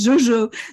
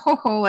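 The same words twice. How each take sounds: First: The name is said with a French pronunciation. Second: The name is said with a Spanish pronunciation. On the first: "in French, Jojo" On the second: "in Spain, sometimes I'm Jojo"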